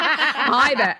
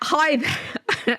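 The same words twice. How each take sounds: First: It is said in a put-on American accent. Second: It is said in the speaker's own accent.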